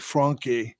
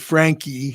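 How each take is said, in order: First: The name is said the original way. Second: The name is said the Americanized way. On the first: "really the pronunciation is actually Franke" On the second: "if you're in the U S, you can say Frankie"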